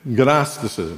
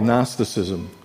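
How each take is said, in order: First: The initial G is sounded out. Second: The initial G is silent.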